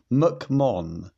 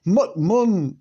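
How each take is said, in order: First: Said in the usual way. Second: Mock Scottish. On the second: Shown as a demonstration. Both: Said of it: "That sounds Scottish".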